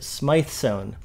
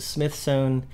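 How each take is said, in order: First: The first syllable rhymes with 'scythe'. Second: The first syllable rhymes with 'with'. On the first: "who pronounce it Smythe-sewn" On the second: "who pronounce it Smith-sewn"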